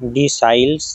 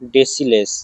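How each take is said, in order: First: The middle syllable sounds like 'sigh'. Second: The middle syllable sounds like 'sil'. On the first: The speaker calls it wrong. "ডিসাইলস বা ডেসিলেস" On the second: The speaker calls it right. "ডেসিলেসই ঠিকঠাক pronunciation"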